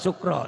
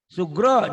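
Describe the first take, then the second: First: The middle consonant is a voiceless k sound. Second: The middle consonant is a voiced g sound. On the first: The speaker calls it wrong. "jangan sukro. Itu plesetan" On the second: The speaker calls it right. "Sugro, jangan sukro"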